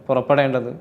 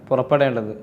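No difference in how they are said.

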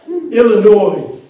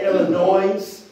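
First: The final s sound is silent. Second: The final s sound is pronounced. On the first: The speaker calls it right. "esta S es muda" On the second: The speaker calls it wrong. "Si alguien dice Illinois, la gente de este estado se enoja"

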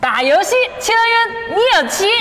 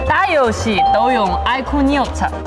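First: It is spoken in a Hunan accent. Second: It is spoken in a Henan accent. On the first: "湖南话" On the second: "河南话"

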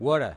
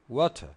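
First: It is said in an American accent. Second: It is said in a British accent. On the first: "Los americanos dicen water" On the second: "Los ingleses dicen water"

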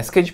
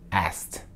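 First: The ending is said as a separate ed syllable. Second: The k is dropped and it ends in t. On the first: The speaker calls it wrong. "Não é asked, pode tirar esse ed aí" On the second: The speaker calls it right. "você pega a letra K e joga ela fora"

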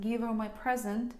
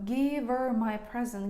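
No difference in how they are said.

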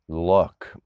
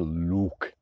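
First: The vowel is a short, relaxed oo sound. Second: The vowel is a long, tight oo sound. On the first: The speaker calls it right. "they say look" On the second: The speaker calls it wrong. "they don't say look, like ukaž mi ukulele"

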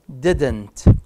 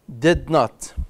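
First: It is said as one contracted syllable. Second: It is said as two separate full words. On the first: "short form" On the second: "long form"

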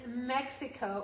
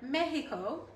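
First: The name is pronounced the usual English way. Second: The name is pronounced the local Spanish way.

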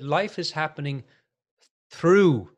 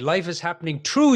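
First: It is said without an Irish accent. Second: It is said with an Irish accent. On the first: "I'm trying to say that now without an Irish accent" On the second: "in Ireland, I would say"

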